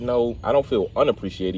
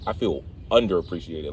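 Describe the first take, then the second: First: "unappreciated" said without the D E R; "unappreciated" said as the wrong word. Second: "underappreciated" said in full, "under-" at the start; "underappreciated" said clearly as the right word. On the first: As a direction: start the word as "un-" and skip "der". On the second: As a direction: give "underappreciated" all of its "under" syllables. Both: Shown as a demonstration. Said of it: "You gotta add the D E R".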